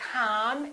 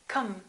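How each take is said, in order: First: The vowel is a full vowel. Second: The vowel is a reduced vowel. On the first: The speaker calls it wrong. "So it's not com" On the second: The speaker calls it right. "it's cum"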